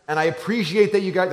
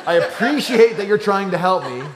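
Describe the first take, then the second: First: Said in the usual way. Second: Higher and louder, laughing, mock gracious politeness; sweetly polite, the way he does NOT say it; overly polite. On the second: Shown as a demonstration. Big brother thanking siblings, mock sugary politeness. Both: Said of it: "he's not saying in this tone".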